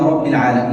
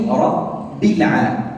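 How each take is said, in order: First: The phrase is read quickly and hurriedly. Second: The phrase is read at a measured pace. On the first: The speaker calls it wrong. "لا أقول رب العالمين، لا بسرعة" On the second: The speaker calls it right. "مثل قوله رب العالمين"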